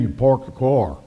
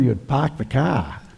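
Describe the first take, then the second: First: It has an Indiana accent with clear R sounds. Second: It has a Boston accent with the R's dropped.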